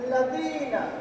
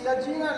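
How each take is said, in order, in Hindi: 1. बीच का व्यंजन नरम 'th' की आवाज़ है। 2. बीच का व्यंजन 'z' की आवाज़ है।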